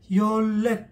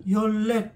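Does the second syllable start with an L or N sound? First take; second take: L; L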